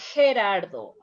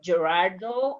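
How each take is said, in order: First: The name is said with a Spanish pronunciation. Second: The name is said with an English pronunciation. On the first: The speaker calls it right. "In Spanish, it's" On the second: The speaker calls it wrong. "In English, you probably you said"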